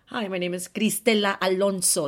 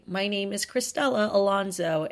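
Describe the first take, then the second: First: Name with rolled r and Spanish vowels; Spanish accent. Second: Put-on name in a plain American English accent; English pronunciation. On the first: Retold or imitated. Host pointedly introducing herself to critics, Spanish accent. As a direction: say Cristela Alonso the Spanish way. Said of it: "I say that with an accent". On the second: Host introducing herself in a promo, English accent. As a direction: say Cristela Alonso the English way, with English vowels. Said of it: "saying your name with an English accent".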